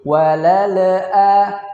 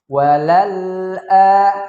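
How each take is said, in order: First: The l sound is released with a small bounce. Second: The l sound is held cleanly without a bounce. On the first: The speaker calls it wrong. "dibaca dengan pantulan, yaitu seperti" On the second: The speaker calls it right. "kita baca dengan bacaan yang jelas"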